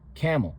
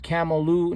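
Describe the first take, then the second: First: The word ends in l with no vowel. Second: The word ends with an added u vowel. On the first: The speaker calls it right. "No, it's camel" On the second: The speaker calls it wrong. "Not camel or camela or camelu"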